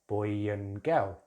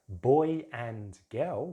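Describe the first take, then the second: First: A y sound links boy to and. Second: The words are said separately, without a linking sound.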